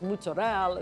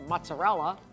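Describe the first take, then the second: First: It is said with an Italian pronunciation. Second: It is said with an English pronunciation. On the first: A native Italian would say it this way. "My husband says mozzarella" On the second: A typical English speaker would say it this way. "instead of mozzarella"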